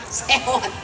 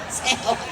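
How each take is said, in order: Both takes have the same delivery.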